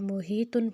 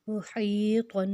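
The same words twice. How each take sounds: First: The h is a plain, light breathy sound. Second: The h is a harsh sound from the throat. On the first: The speaker calls it wrong. "इसमें सिंपल दो चश्मे वाला हा हो जाएगा, जिसकी वजह से लफ्ज़ गलत हो जाएगा" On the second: The speaker calls it right. "इसको हमने हलक से निकालना है"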